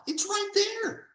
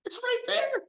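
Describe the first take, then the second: First: Much higher, insistent pointing it out; higher emphatic insistence. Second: Hushed whispered repeat. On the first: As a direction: say it high and pressing, as if tapping the page. Stressing the founders' words. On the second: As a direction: whisper it, much higher and hushed. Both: Real, not acted.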